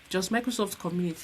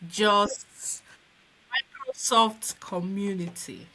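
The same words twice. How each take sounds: First: It is said quickly. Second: It is said slowly and clearly.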